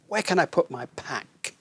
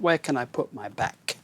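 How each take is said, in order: First: The last word begins with a voiceless P sound. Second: The last word begins with a voiced B sound. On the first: The speaker calls it right. "it means pack" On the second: The speaker calls it wrong. "But not where can I put my back?"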